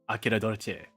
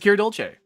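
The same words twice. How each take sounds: First: The voice is pitched deeper than usual. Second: The voice is pitched higher than usual.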